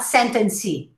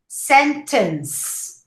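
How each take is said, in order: First: It ends with an added vowel sound. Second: It ends on the final s sound. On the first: The speaker calls it wrong. "not sentencey" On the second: The speaker calls it right. "with an S sound in the end"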